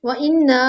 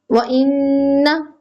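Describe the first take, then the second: First: इन्ना with the nasal cut short; clipped इन्ना without ghunna; wrong way. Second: इन्ना with the नन held two counts; slow ghunna on इन्ना; nasal ghunna held. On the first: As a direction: rush through इन्ना. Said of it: "नहीं होगा". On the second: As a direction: hold the nasal in इन्ना slowly. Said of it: "गुन्ना दो हरकत होगा". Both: Shown as a demonstration.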